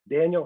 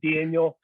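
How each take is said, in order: First: The name is said in a neutral accent. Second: The name is said in a Chicago accent.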